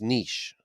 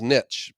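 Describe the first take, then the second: First: The word is said the newer way. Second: The word is said the older way. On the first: This is how it is said today. "but now it's niche" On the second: This is how it was said in the past. "When I was growing up, the word was niche"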